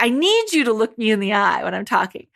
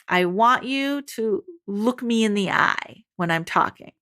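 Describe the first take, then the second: First: Rushed, with a punch on "need"; quicker take, leaning hard on "need"; substituting need. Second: Said in the usual way. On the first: Retold or imitated. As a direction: hurry through it after stressing "need". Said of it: "instead they'll be like". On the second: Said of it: "repeat after me".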